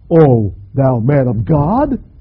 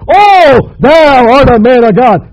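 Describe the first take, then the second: First: It is said as a doubting question. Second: It is said as a confident exclamation.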